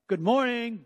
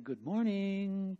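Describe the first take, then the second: First: It is said in an irritated, impatient tone. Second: It is said in a cheerful, gentle tone. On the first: The speaker has already called several times. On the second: It is a friendly first call to wake up.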